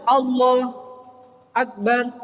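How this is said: A short pause separates the two words. The speaker calls it right. "atau mandek"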